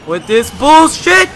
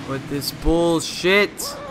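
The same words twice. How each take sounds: First: High, loud, drawn-out rage yell; raging gamer. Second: Said in the usual way. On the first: Real, not acted. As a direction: explode at the game, slowly. Fed up with the game.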